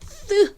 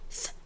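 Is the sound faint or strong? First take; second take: strong; faint. First: The sound is strong and forceful. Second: The sound is faint and airy. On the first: The speaker calls it wrong. "이렇게 강렬한 소리 아니고" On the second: The speaker calls it right. "조그맣게"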